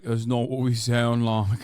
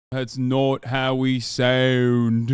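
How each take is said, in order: First: Lightly imitating Australian friends; a hint of put-on Australian accent at normal volume; mock Australian accent. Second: Louder, very slow, hammed-up Australian drawl; exaggerated Australian accent. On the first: Friends objecting to streamer's impression, lightly mocked Australian accent. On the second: Friends mad at streamer's accent, mimicked in drawn-out exaggerated Australian. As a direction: stretch out a mock Australian accent. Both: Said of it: "trying to do an Australian accent".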